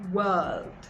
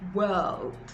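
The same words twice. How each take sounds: First: The vowel is an er sound. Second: The vowel is an er sound.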